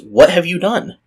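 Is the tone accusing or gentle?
gentle. It is asked in a soft, gentle tone. The asker invites her to own up. The speaker calls it right. "read this with kind of the tone of voice that I just did"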